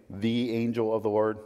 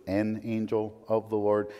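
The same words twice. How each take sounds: First: "the" stressed as the definite article. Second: "an" set apart, then "of" leaned on; stress on an. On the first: Preacher contrasting the phrasings, stressing "the". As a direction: lean on "the" in "the angel of the Lord". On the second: Preacher contrasting the phrasings, marking "an". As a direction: mark the indefinite "an" in "an angel of the Lord". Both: Shown as a demonstration.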